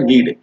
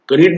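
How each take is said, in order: First: The word begins with n; k is silent. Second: The word begins with a sounded k. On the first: The speaker calls it right. "कनीड नहीं होता है नीड होता है" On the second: The speaker calls it wrong. "यहाँ के silent होगा आप ऐसे नहीं बोलिए कनीड"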